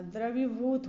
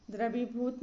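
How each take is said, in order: First: द्रवीभूत with a clear V; correct V sound. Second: द्रवीभूत with B for V; wrong B sound. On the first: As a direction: say द्रवीभूत as "dravibhut". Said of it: "होता है". (द्रवीभूत में साफ़ "व") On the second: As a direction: say द्रवीभूत as "drabibhut". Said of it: "नहीं होता". (द्रवीभूत में "व" की जगह "ब") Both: Shown as a demonstration.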